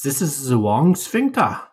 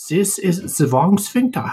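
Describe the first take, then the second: First: Mock German accent, slow and a bit higher; half-hearted German voice, drawn out; bad German accent. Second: Hammed-up German accent, much higher and slow; bad German accent. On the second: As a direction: ham up a mock German voice, stretched out. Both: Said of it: "that's my bad German accent".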